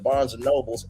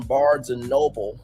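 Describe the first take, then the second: First: The last word ends with an added s sound. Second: The last word ends without an s sound. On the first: The speaker calls it wrong. "but Milagros said Barnes and Nobles" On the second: The speaker calls it right. "That's the correct pronunciation"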